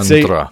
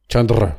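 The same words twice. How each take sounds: First: The name is said with a plain English pronunciation. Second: The name is said with a native-style pronunciation. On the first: "reverting back to the old one" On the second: "Let me give it one go"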